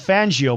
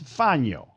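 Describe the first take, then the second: First: The middle has a hard G sound. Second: The middle has an ny sound, no G. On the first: This is how most people say the name. The speaker calls it wrong. "now everyone will call him Fangio" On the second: This is the name's original pronunciation. The speaker calls it right. "That's the real way to say his name"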